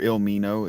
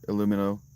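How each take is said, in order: First: The name begins with 'Ilm', with no vowel after L. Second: The name begins with 'Illu', with a vowel after L. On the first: The speaker calls it right. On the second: The speaker calls it wrong.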